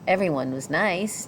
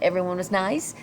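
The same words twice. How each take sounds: First: It is said as a statement, falling. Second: It is said as a question, rising.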